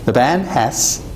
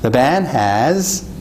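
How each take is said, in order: First: The final sound of has is a voiceless s. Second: The final sound of has is a voiced z. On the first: "분명히 스가 난 느낌이고요" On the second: "약간 z가 난 느낌을 주고 있죠"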